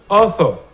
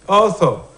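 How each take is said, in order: No difference in how they are said.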